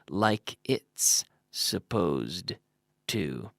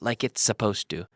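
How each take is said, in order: First: Each word is pronounced clearly and separately. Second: The words run together quickly with linked sounds. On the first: The speaker calls it wrong. "we would never pronounce it that clearly" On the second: The speaker calls it right. "if I say that fast"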